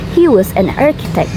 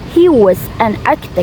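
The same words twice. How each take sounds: First: The word 'was' is reduced with a schwa. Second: The word 'was' has a full vowel. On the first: The speaker calls it right. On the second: The speaker calls it wrong. "Not he was"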